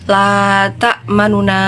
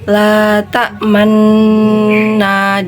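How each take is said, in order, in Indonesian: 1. Vokal u samar yang cepat memisahkan kedua bunyi n. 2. Kedua bunyi n menyatu tanpa vokal di antaranya. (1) "kalau dibaca ikhtilas" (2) "dibaca ismam"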